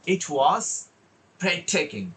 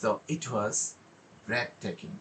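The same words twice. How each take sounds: First: Raised "It was", a beat, then high "breathtaking"; pause before breathtaking. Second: Low, hushed "breathtaking" after a beat; pause, then drop "breathtaking" low and soft; low pitch with pause. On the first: Teacher showing a well presented line, pause before high-pitched "breathtaking". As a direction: stop after "It was", then lift "breathtaking". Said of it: "তার আগে একটু pause দিলে". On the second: Teacher demonstrating pitch variation, low soft "breathtaking" after a pause. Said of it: "আবার লো পিচে নোটটা নিলে". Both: Shown as a demonstration.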